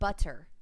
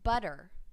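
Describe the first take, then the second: First: The middle consonant is a hard T. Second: The middle consonant sounds like a soft D. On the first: The speaker calls it wrong. "It's not butter" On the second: The speaker calls it right. "almost like two soft D's instead of two T's"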